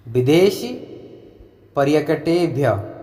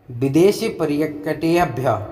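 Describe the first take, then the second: First: "विदेश" said alone with a pause, then "पर्यटकेभ्य"; split into parts. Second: Said in the usual way. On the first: Shown as a demonstration. Teacher to students, saying "विदेश" and "पर्यटकेभ्य" as two separate words. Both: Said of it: "आप इनको अलग अलग विदेश पर्यटकेभ्य करके बोल सकते हैं".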